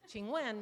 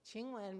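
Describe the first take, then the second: First: Tones that give the meaning 'may I ask'. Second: Tones that give the meaning 'please kiss'. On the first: A polite request to ask a question. "Qing Wen means can I ask you a question?" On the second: A request for a kiss. "Qing Wen means please kiss me"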